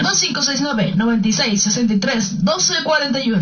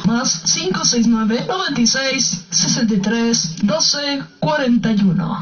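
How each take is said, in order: First: The number is read at normal, faster speed. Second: The number is read more slowly.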